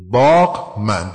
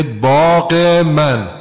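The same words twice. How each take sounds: First: «باغ من» جدا جدا، بدون کسره، خیلی آهسته; «باغ» و «من» مثل دو کلمهٔ بیگانه; no ezafe. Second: «باغ من» آهسته با کسرهٔ کشیده پس از «باغ»; «باغِ من» شمرده و کند; ezafe demo. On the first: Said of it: "دو تا لفظ بیگانه". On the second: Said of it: "یه کسره اضافه شد". («باغِ من» آهسته با کسره) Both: Shown as a demonstration.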